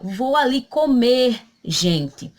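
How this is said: There is a short pause before 'gente'. The speaker is going to eat and is addressing everyone. The speaker calls it right. "precedido de vírgula, para dar a pausa"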